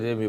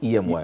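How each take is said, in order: First: The name is said as one two-syllable word. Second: The name is spelled out as three separate letters. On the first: "you can call it Emmy" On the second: "but it's E M Y"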